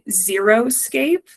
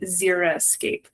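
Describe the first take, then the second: First: The word begins with the sound of 'zero'. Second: The word begins with the sound of 'zeri'. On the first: The landscape is thought to use zero water. The speaker calls it wrong. "mispronounced and um, sort of confused as being xeroscape, but that is incorrect" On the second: The landscape is a dry landscape. The speaker calls it right. "the word itself is actually xeric and xeriscape"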